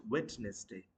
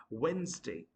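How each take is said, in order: First: Wednesday as "WED-nes-day"; mispronounced Wednesday. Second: Wednesday as "WENZ-day"; two syllables in Wednesday, no first d; correct pronunciation. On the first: Teacher showing what not to say, Wednesday as "WED-nes-day". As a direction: sound the d in Wednesday. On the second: Teacher summing up, Wednesday as "WENZ-day". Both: Shown as a demonstration. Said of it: "not Wednesday".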